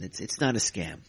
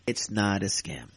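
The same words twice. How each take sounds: First: Said in the usual way. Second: "not" leaned on, slowly and firmly; slow emphatic denial. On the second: Real, not acted. Insisting to trolls it's no scam, slow and firm.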